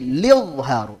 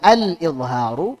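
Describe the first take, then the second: First: The word begins directly with an 'l' sound. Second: The word begins with an 'a' vowel sound. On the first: The vowel is dropped when reading the verse. "menjadi lidharu" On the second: This is the original form of the word.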